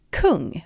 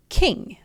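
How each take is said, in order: First: Kung with a rounded Swedish u, /kuŋ/. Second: King said with an English short i, /kɪŋ/. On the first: Teacher showing learners Swedish kung pronunciation. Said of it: "in Swedish we pronounce it". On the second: Teacher modeling King for learners in English. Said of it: "The first word is the word for king". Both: Shown as a demonstration.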